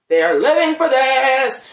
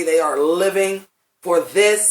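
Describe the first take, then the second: First: Loud, high, drawn-out rave; over-the-top gushing. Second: Said in the usual way. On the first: Retold or imitated. Fan raving about the actresses' scene, loud hammed-up gushing. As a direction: belt it out slowly in theatrical delight. Repeats gushing praise, escalated.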